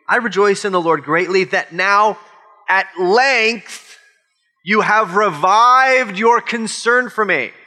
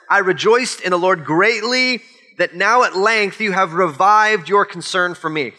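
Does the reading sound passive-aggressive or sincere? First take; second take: passive-aggressive; sincere. First: It is read in a passive-aggressive tone. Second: It is read in a plain, sincere tone. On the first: It hints at a reproach for past neglect. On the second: The gratitude is genuine.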